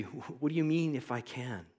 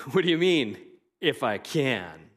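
First: Said in the usual way. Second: Mock-incredulous, louder, with If I can drawn out slowly; sarcastic Jesus asking the father. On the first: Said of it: "hard to get Jesus' tone". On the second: Shown as a demonstration. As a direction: toss the question back with a smirk. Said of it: "being sarcastic".

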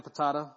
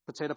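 First: "patata" with middle vowel as in "father"; broad a pronunciation. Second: "Potato" with middle vowel as in "day"; long a pronunciation. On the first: Preacher joking about two ways of saying words, "patata" as puh-TAH-tuh. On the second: Preacher joking about two ways of saying words, "Potato" as puh-TAY-toh. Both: Shown as a demonstration. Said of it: "however you say it".

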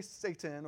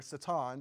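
First: Said in the usual way. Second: Satan said as sa-TAHN; original pronunciation. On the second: Shown as a demonstration. Preacher showing how you say it, Satan as sa-TAHN. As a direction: stress the second syllable of Satan, with an open "ah". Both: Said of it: "because that's how you say it".

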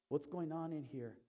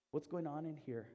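Both takes have the same delivery.

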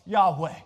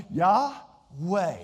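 First: Said in the usual way. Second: Yahweh breathed out as two separate syllables. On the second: Shown as a demonstration. Preacher showing the divine name to the congregation, Yahweh like a breath. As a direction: say Yahweh like a breath, pausing between Yah and weh. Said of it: "it's like a breath".

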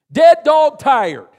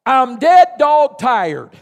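First: Slow, loud Southern repeat of dead dog tired; slow Southern echo; Southern saying echoed. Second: Slow, loud Southern drawl on dead dog tired; Southern dead dog tired, drawn out; Southern saying. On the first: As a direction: savour the phrase again, Southern. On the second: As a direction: lean into the Southern phrase. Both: Acted. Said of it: "here's how we'd say it in the South".

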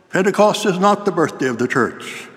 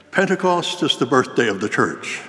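First: Higher-pitched indignant objection; mock shouting. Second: Said in the usual way. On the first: Principal contradicting the student preacher, mock shouting. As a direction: retell a shouted contradiction, stopping short of full volume. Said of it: "jumped to his feet and started shouting". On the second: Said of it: "began his sermon with an exclamation".

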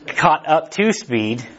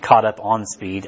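First: Slow, deliberate "to speed"; corrected phrase. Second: Slow, lowered replay of "on speed"; slow self-correction. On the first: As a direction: caught up TO speed, each word slow and spaced. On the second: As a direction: caught up ON speed, said slowly and lower. Correcting own slip of phrase. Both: Shown as a demonstration.

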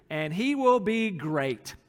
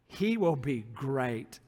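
First: Said in the usual way. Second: "great" drawn out slowly, low in pitch; slow, lowered reading, letting "great" sink in; weighty repeat. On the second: Shown as a demonstration. Preacher repeats the verse to underline "great", slow weighty repeat.

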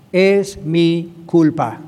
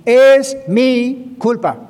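First: Very slow, "Es" pressed, falling end; slow confession. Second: Louder and higher, very slow, "Es" hammered; proclaimed confession. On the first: Pastor modelling a confession for listeners, slow and grave. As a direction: draw out "Es mi culpa" word by word. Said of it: "Tenemos que aprender a decir esto". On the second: Pastor driving the lesson home to the congregation, loud and slow. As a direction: call out "Es mi culpa" as a ringing declaration. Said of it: "repeated confession, now proclaimed". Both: Shown as a demonstration.

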